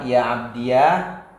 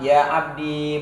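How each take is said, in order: First: The word ends in the syllable iya. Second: The word ends in a long i. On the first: "menetapkan ya mutakalim dibaca fathah" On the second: "menetapkan ya mutakallim sukun"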